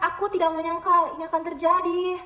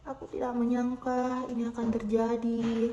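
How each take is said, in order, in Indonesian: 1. Suaranya terdengar kaget dan terkejut. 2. Suaranya terdengar penuh harapan dan hangat. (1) "dengan nada kaget" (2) "dengan nada penuh harapan"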